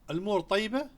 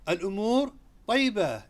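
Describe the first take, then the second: First: It is asked as a question, rising at the end. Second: It is said as a statement, falling at the end.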